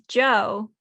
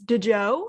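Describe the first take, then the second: First: The name is said as one syllable. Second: The name is said as two syllables. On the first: The speaker calls it right. "this is [name], uh [name]" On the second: The speaker calls it wrong. "I have been s- pronouncing as DeJoe, which apparently is not how [name] pronounces"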